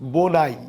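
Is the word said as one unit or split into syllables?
one unit. The word is said smoothly as one unit.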